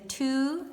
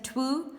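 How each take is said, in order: First: No w sound is heard before the vowel. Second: A w sound is heard before the vowel. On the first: The speaker calls it right. "we say two" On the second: The speaker calls it wrong. "we don't say twu"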